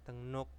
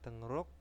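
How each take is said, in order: First: The second syllable starts with an N sound. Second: The second syllable starts with an R sound. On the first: "bacanya tengnuk" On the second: "tulisannya tengruk"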